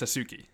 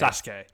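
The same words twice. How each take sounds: First: The middle u vowel is clearly pronounced. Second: The middle u vowel is silent. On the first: The speaker calls it wrong. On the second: The speaker calls it right.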